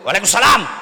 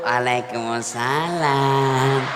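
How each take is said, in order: First: It is said in a firm, curt voice. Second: It is said in a soft, lilting, alluring voice.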